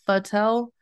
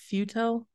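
First: The first syllable has a short 'a' vowel. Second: The first syllable has an 'oo' vowel. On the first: Other people say the name this way. "they're pronouncing it fatel" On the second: The speaker believes the name is said this way. "I'm thinking it's futel"

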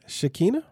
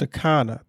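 First: The middle vowel sounds like 'ee'. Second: The middle vowel sounds like 'ah'. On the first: The speaker calls it wrong. "Is that how you pronounce it?" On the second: The speaker calls it right. "There you go"

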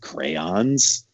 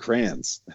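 First: The first syllable sounds like 'cray'. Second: The first syllable sounds like 'cran'. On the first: This is the form nobody used where the speaker grew up. "no one said crayons" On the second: This is the form everybody used where the speaker grew up. "Everyone said crayons"

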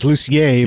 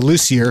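First: The name is said with a French pronunciation. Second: The name is said with an American pronunciation. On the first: This is the name's original form. "my last name is Lucier" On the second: This is a simplified form anyone can say. "we dumb it down to Lucier so that everybody can pronounce it"

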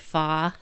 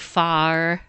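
First: The R sound is soft and weak. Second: The R sound is firm and clear. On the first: "I have a kind of a soft, weak R. So instead of saying far, I'll say far" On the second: "instead of saying far"

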